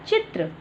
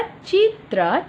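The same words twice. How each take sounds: First: Said in the usual way. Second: Teacher stretches चित्र for the class to copy; slow model. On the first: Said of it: "normal take". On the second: Shown as a demonstration. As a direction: say चित्र very slowly, rising at the end. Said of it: "slow model then normal".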